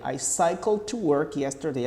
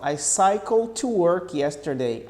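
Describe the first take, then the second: First: Said in the usual way. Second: Slow, "cycled" running into "to"; linked D. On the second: Shown as a demonstration. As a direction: link the D of "cycled" into "to", slowly. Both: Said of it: "Aí fala assim, ó".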